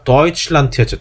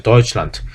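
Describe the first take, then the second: First: Said in the usual way. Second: "Deutschland" ending on a hard t; German final d devoiced. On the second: Shown as a demonstration. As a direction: say "Deutschland" with a t at the end. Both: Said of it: "끝에 데가 오는 게 T로 발음".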